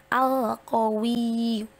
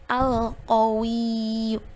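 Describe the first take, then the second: Both takes have the same delivery.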